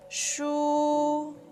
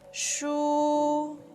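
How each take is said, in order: First: The pitch stays high and level. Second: The same.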